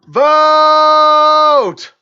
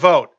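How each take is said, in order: First: The word is said much louder. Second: The word is said at ordinary volume.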